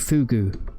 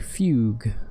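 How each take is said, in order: First: The word ends with an oo vowel. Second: The word ends with a g sound. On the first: The speaker calls it wrong. "Don't say fugu" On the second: The speaker calls it right. "Like F Y U G"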